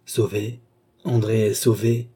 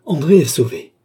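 First: Echoed automatically, little exclamation; mechanical repetition. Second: High, loud exclamation of deliverance; relieved cry. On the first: Philippe echoes his sister's words, mechanically. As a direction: repeat it as if dazed, without the cry. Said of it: "répéta-t-il machinalement". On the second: André sees the pursuer flee, crying out in relief. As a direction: cry out as the danger lifts. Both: A narrator's reading.

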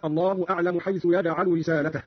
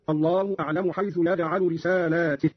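First: Said in the usual way. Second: رسالاته with second long aa, then ti; long lam, kasra ta. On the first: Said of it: "قرأ قالون بمد اللام وكسر التاء". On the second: Shown as a demonstration. Teacher shows Qalun's reading, رسالاته pronounced risaalaatih. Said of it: "بمد اللام وكسر التاء هكذا".

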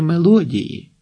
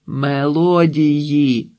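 First: Said in the usual way. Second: «Мелодії» drawn out syllable by syllable; long held vowels on «Мелодії»; slow correction. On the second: A narrator's reading. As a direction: repeat «Мелодії» very slowly for those who misheard. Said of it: "відповіла їм Марта".

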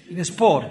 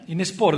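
First: Said in the usual way. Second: Είναι σπόρ said through a short laugh. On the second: Shown as a demonstration. Priest joking that hypocrisy in church is a sport, laughing. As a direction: repeat Είναι σπόρ with an amused chuckle.

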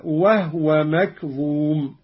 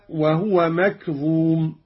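First: "وهو" recited "wah-wa"; slow recitation with "wahwa" for "وهو"; silent-vowel ha. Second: Said in the usual way. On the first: Shown as a demonstration. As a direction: close the h in "وهو", no u after it. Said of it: "أسكن الهاء قالون".

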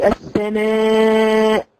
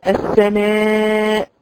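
First: السماء with the final hamza bouncing out as a jolt; wrong hamza release. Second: السماء drawn out with a clean held hamza stop; السماء slowly, the hamza closed and still; correct hamza stop. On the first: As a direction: let the hamza of السماء pop loose like a mistake. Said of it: "تعمل كده". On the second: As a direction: hold the final hamza of السماء without releasing it. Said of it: "لما تيجي تقف على كلمة السماء". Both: Shown as a demonstration.

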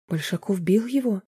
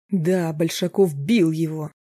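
First: Said in the usual way. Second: Slow angry confirmation, бил hit hard; husband snapping back in anger. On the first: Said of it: "похолодела Марина". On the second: Acted. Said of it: "разозлился Роб".

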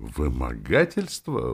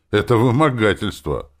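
First: Slow, incredulous echo question; exclaimed disbelief. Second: Said in the usual way. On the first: A narrator's reading. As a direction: stretch the accusation back as a question. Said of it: "воскликнул он". (изумлённо переспрашивая, медленно)

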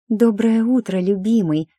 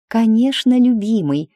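First: High, loud breathy gush; breathy fake-sweet lover's greeting; breathy whisper. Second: High, loud, sugary coo; fake sweet. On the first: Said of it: "с придыханием прошептала я". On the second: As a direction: pout and coo it much higher. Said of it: "я вытянула губки бантиком".

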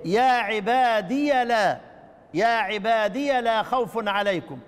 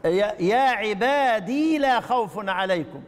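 First: عبادي said with the ya voiced as ya, slow recitation; ya with fatha. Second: عبادي said ending in a long ee with no ya sound before لا, slow; silent ya. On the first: Teacher reciting Shu'ba's reading to students, slow. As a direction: open the ya into لا, slowly. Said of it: "يقرأ بإثبات الياء مفتوحة". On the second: Teacher reciting the others' reading to students, slow. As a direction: hold the ya silent, recite slowly. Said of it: "بالإثبات ساكنة". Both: Shown as a demonstration.

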